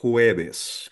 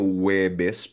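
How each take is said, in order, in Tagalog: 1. Ang salita ay nagsisimula sa maririnig na tunog na h. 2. Ang salita ay nagsisimula sa tunog na w. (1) "dapat marinig daw yung hu" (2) "parang W"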